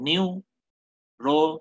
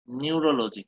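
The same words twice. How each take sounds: First: neurology broken into slow separate syllables, ni-u-ro-lo-ji. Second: Said in the usual way. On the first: Shown as a demonstration. Lecturer demonstrating Broca's aphasia speech to students, halting syllables. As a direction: stretch neurology out one syllable at a time, halting. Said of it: "এইভাবে বলবে". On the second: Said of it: "syllable ভাগ করে করে বলবে, like".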